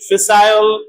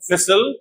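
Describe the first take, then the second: First: The last syllable has a full 'eye' vowel. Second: The last syllable is reduced, without 'eye'.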